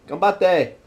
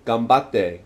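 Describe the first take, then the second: First: High-pitched "ganbatte"; encouraging. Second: Said in the usual way. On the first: Shown as a demonstration. Urging someone to keep fighting, high encouraging "ganbatte". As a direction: cheer them on in a higher pitch. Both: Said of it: "say it in so many ways".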